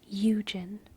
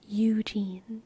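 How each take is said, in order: First: The first syllable is stressed; the second is reduced. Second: Both syllables are fully pronounced and stressed. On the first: "If it were a real trochee, it would be Eugen" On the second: "a spondee... both the first and last syllable are fully pronounced and emphasized"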